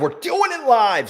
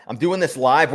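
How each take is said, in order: First: Much higher and slow, hammed up; TV anchor catchphrase. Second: Said in the usual way. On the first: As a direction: belt it like a blustery TV host. Catchphrase echo of own line.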